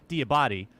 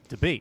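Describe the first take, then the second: First: The name sounds like 'dee-a-bah-tee'. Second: The name sounds like the word 'debate'. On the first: This is the original family version. "it's actually Diabati" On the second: This is the everyday, easier version. "Mike Debate is how he calls it"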